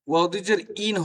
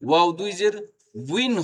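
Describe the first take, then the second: First: The final syllable is a bare 'in' sound. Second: The final syllable starts with a w sound. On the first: The speaker calls it wrong. "অনেকেই বলে ওয়াও দুই জের ইন ... হয় না" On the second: The speaker calls it right. "ওয়াও দুই জের উইন হবে"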